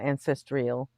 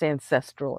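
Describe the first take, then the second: First: It is said with an extra 'ee' sound. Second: It is said with no extra vowel sound. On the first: The speaker calls it wrong. "it's not ancestral. There's no fucking I in there" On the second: The speaker calls it right. "If the word is ancestral"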